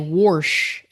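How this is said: The word is said in a country accent. This is how a family member from the South says it. "My mom will say wash"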